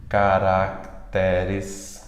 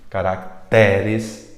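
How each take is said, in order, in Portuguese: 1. A sílaba tónica está na penúltima sílaba. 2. A sílaba tónica está na penúltima sílaba.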